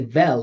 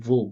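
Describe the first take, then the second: First: The syllable has a clear full vowel. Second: The syllable is a syllabic L sound. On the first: The speaker calls it wrong. "we're not gonna say vel" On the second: The speaker calls it right. "It's gonna be vul"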